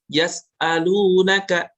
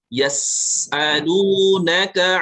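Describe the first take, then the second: First: The s sound is cut short and held back. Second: The s sound flows out as a strong hiss. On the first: The speaker calls it wrong. "ini berarti sifat sofirnya, hamsnya juga kurang ya" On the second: The speaker calls it right. "pastikan uh, alirannya deras ya"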